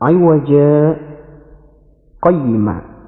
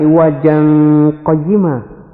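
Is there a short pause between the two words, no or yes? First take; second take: yes; no. First: A brief stop separates the two words. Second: The two words run together without a stop. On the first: "Di situ ada bacaan sakdah" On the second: "seperti hukum aslinya"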